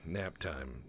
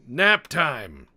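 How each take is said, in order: First: Said in the usual way. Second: NAP TIME yelled high and loud; mock triumphant yell. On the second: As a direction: belt it out playfully at a downed foe. Repeats it as mock battle cry.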